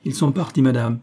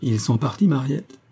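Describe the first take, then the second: First: "Ils sont partis" stated higher at first, then settling on "madame"; confirming answer, "madame" closing as a statement. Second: "Ils sont partis, Mariette" asked with a lilting rise at the end; idle question, "Mariette" ending high; indolent question. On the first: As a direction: report it plainly, no questioning rise on "madame". Maid answers the mistress's question. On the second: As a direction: ask it lazily, lifting "Mariette" upward. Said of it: "demanda indolemment Miss Pearl". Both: A narrator's reading.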